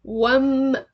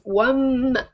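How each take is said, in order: First: The word ends with an m sound. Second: The word ends with an m sound.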